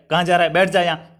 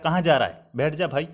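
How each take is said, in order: First: Curt order, lightly acted irritation; mild mock anger. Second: Softly coaxing, easing off at the end; affectionate. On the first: Teacher imitating someone angrily ordering you to sit, mildly cross. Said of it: "किसी ने क्रोध में आकर". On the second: Teacher acting someone who wants your company, softly affectionate. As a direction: gently invite a friend to sit. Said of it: "वो आपको प्रेम से कह रहा है". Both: Shown as a demonstration.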